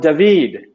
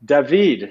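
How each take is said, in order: First: The name is said the Hebrew way. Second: The same.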